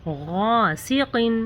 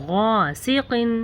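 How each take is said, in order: The two takes are said the same way.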